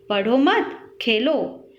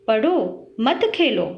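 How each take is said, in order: First: "पढ़ो मत" joined, then "खेलो" alone; pause after मत. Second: "पढ़ो" alone, then "मत खेलो" together; pause after पढ़ो. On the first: Teacher showing changed meaning, pause after "पढ़ो मत". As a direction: run "मत" onto "पढ़ो", then break. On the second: Teacher showing punctuation changes meaning, pause after "पढ़ो". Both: Shown as a demonstration. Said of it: "कुछ चिन्हों के प्रयोग से उनका अर्थ बदल गया".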